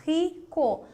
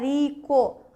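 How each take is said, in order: The two takes are said the same way.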